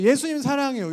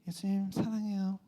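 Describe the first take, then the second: First: It is said warmly, with heartfelt feeling. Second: It is said flatly, without feeling.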